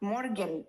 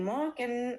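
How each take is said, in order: First: The r sound is clearly pronounced. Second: The r sound is barely heard. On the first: "আমি মর্গেনের আরটা উচ্চারণ করে বলতেছি" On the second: "মনে হয় যে আর উচ্চারণ করি নাই"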